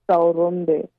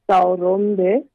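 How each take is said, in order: No difference in how they are said.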